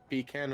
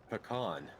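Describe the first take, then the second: First: The second syllable sounds like 'can'. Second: The second syllable sounds like 'con'. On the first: "Like can" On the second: "or con"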